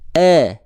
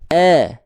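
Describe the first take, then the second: First: The vowel is low and sounds like 'e'. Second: The vowel is low and sounds like 'e'.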